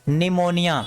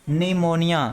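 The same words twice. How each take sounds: The two takes are said the same way.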